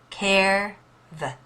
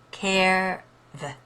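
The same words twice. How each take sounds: Both takes have the same delivery.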